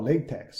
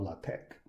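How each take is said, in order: First: "LaTeX" said LAY-tek; long-A pronunciation. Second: "LaTeX" said lah-TEK, softer; short-A pronunciation. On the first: Teacher admits using both names, here "LaTeX" as LAY-tek. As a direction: say "LaTeX" with first syllable like lay. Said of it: "Sometimes I call". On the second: Teacher admits using both names, here "LaTeX" softly as lah-TEK. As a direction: say "LaTeX" with first syllable like lah. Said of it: "sometimes I call". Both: Shown as a demonstration.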